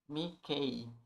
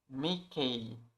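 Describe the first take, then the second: No difference in how they are said.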